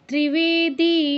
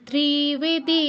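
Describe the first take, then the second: First: The vowel of the second syllable is long. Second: The vowel of the first syllable is long. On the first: The speaker calls it right. "ত্রি এর পর সাথে সাথে বেতে চলে যেতে হবে" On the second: The speaker calls it wrong. "ত্রিতে দীর্ঘ করে ফেলেছেন ... এরকম বলেছেন"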